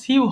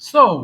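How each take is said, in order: First: The word ends in an 'oo' vowel sound. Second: The word ends in an 'oh' vowel sound. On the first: The speaker calls it wrong. "এটা দেখে মনে হচ্ছে সিউ হবে" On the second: The speaker calls it right. "কিন্তু এটা সঠিক উচ্চারণ সো"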